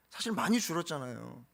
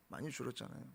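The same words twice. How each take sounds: First: Said in the usual way. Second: Repeated quietly, falling away; hushed repetition of 많이 줄었잖아요; soft echo. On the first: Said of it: "repeated for emphasis". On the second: Real, not acted. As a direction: let the echo of 많이 줄었잖아요 drop almost to nothing. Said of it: "repeated softer".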